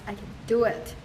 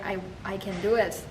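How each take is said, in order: First: "I can do it" with the weight on "do" and "can" left light; stress on do. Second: Said in the usual way. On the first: Shown as a demonstration. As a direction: keep "can" unstressed, lean on "do". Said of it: "I need to stress". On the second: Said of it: "So when I say".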